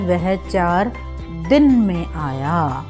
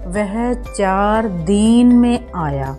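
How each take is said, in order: First: The vowel in din is short. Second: The vowel in din is long. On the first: The speaker calls it right. "इसका शुद्ध उच्चारण है" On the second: The speaker calls it wrong. "अशुद्ध वाक्य है, ... दीन देखें, ये गलत है"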